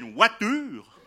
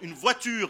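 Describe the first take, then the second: First: It is said in a Swiss French accent. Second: It is said in a standard French accent.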